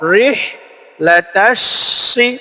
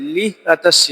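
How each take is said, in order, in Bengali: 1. বাক্যাংশটি R ধ্বনি দিয়ে শুরু হয়। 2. বাক্যাংশটি L ধ্বনি দিয়ে শুরু হয়। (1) "রিহ র" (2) "অনেকে আমরা লিহ বলি, লিহ লাতাসসি না"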